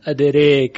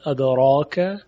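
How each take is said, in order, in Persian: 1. مصوت بلند کاملاً به سمت e کشیده شده است. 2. مصوت بلند یک a کاملاً باز است. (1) "و اماله تام ادریک" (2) "فتح میشود ادراک"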